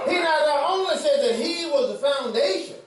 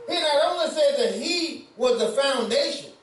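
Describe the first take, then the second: The two takes are said the same way.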